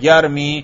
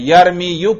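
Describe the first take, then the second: First: The word ends on a long 'i' sound. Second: The word ends with an added 'yu' sound. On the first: The speaker calls it right. "یا پر ضمہ ثقیل تھا وہ گر چکا ہے" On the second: The speaker calls it wrong. "یرمی یو پڑھا میں نے؟ نہیں"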